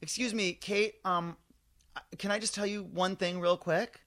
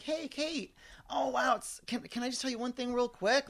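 First: Really nice. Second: High, lilting and extra friendly, shoulders up. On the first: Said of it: "I'm really nice the way I say it". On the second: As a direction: sweeten every word in a sing-song. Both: Retold or imitated.

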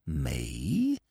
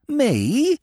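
First: Low, soft, feigned innocence; hushed innocent me. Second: Pitched up, mock astonished; higher mock outrage. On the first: Acted. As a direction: murmur it as if wounded. Steggles feigns innocence, first take. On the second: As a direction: play the wronged innocent. Steggles feigns innocence, second take.

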